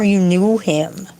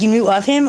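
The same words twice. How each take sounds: First: KNEW leaned on, rising question; stress on KNEW. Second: "knew of" with OF picked out; stress on OF. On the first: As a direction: lean on KNEW, meaning a personal acquaintance. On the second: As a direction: lean on OF, as mere acquaintance by name. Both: Real, not acted. Contrasting two kinds of knowing.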